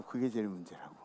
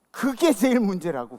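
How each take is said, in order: First: Second time much softer and lower, 그게 dropped; preacher echoing the line softly to let it sink in, quiet. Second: First time loud and higher, 그게 punched; preacher stating it loudly to the congregation, loud and emphatic. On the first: Soft low echo. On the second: Loud emphatic repeat. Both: Shown as a demonstration.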